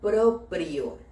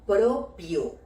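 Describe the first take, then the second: First: The word has two R sounds. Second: The word has only one R sound. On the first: The speaker calls it right. "con dos R, una en cada sílaba" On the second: The speaker calls it wrong. "colocar la palabra propio en lugar de la palabra"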